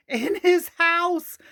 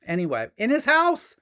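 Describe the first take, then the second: First: High, slow giggling repeat; laughing. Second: Said in the usual way. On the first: Real, not acted. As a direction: laugh it out slowly. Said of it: "laughs, repeats". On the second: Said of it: "repeats with laugh".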